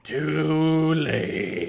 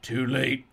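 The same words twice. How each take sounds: First: Drawn-out higher rasp; hammed-up, elongated rasp. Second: Lightly rasped villain line; acted rasp, restrained. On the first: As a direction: stretch it into a villain's taunt. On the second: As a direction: rasp it as a short threat. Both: A narrator's reading. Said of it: "Sal rasped".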